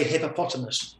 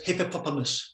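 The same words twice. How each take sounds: First: Said in the usual way. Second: "hippopotamus" with its middle sounds muddled; imitated mispronunciation. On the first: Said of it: "She says hippopotamus". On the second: Husband imitates his Japanese wife's attempt, "hippopotamus" mispronounced. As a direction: imitate a learner stumbling on the syllables of "hippopotamus". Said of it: "She can't say hippopotamus".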